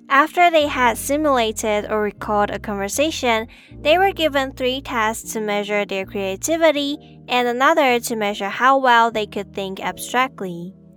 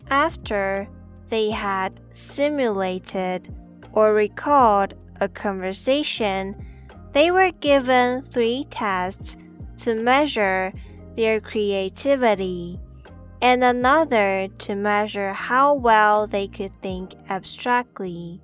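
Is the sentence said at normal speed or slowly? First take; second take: normal speed; slowly. First: It is said at normal speed. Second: It is said slowly.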